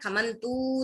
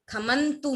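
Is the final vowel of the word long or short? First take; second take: long; short. First: The final vowel is drawn out long. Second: The final vowel is short. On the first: The speaker calls it wrong. "खमंतु नहीं करना है" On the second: The speaker calls it right. "तू छोटा है"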